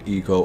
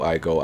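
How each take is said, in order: First: The name begins with an 'ee' sound. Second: The name begins with an 'eye' sound. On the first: This is the speaker's habitual pronunciation. The speaker calls it wrong. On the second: This is the pronunciation others insist on. The speaker calls it right.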